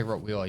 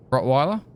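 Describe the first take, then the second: First: Rottweiler with a "wee" middle, ROT-wee-ler; own pronunciation. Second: Rottweiler with a "why" middle, rising in question; other pronunciation. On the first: Speaker showing how they say the breed, Rottweiler pronounced "rot-wee-ler". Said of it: "I say Rottweiler, you say what?". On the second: Speaker trying the other way of saying it, Rottweiler as "rot-why-ler?". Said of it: "you say what?". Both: Shown as a demonstration.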